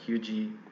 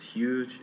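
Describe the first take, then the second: First: An extra vowel is added after the consonant. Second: The word ends cleanly on the consonant. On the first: The speaker calls it wrong. "it's not hugie" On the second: The speaker calls it right. "It's huge"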